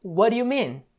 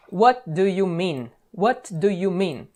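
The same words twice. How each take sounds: First: What do you mean run together as wharuu mean; native connected speech. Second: Slow, every word clear, What do you mean; What do you mean said word by word, t and d fully sounded; careful spelled-out English. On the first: Teacher shows how natives really say it, quick and linked. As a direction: flap the t, blend What do you into one quick word. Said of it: "Eles falam". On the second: Teacher shows the careful version before the native one, slow and clear. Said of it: "uma dica de pronúncia ... num nível um pouco mais nativo, não é". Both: Shown as a demonstration.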